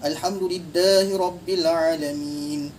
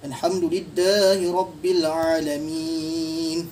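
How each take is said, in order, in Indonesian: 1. Huruf mad di akhir dibaca dua harakat. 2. Huruf mad di akhir dibaca empat harakat. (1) "tadi dua" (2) "Contoh empat"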